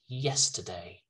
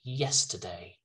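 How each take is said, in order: First: It is said with a British accent. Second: The same.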